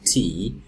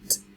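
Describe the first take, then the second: First: It is a full syllable with a vowel. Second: It is a short consonant with no vowel. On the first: This is the name of the letter. "The name of the letter is T" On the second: This is the sound the letter makes. "the sound it makes is t"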